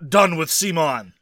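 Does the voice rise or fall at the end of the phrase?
fall. The voice falls at the end, like a statement. The title declares that one is done with the company. The speaker calls it wrong.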